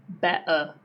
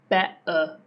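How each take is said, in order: No difference in how they are said.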